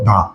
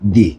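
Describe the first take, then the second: First: The word ends in an 'uh' vowel. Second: The word ends in an 'ee' vowel. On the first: The next word begins with a consonant. "সেজন্য এটা আমরা কি উচ্চারণ করবো, দা" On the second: The next word begins with a vowel. "এটাকে আমরা উচ্চারণ করবো কি, দি"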